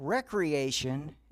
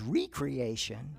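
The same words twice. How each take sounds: First: It is said as the usual single word. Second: It is split as re- plus creation. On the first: A place for leisure and play. The speaker calls it wrong. "I'd been mispronouncing it as recreation" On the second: Creating oneself anew. The speaker calls it right. "its actual meaning"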